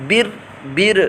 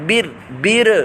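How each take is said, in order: The two takes are said the same way.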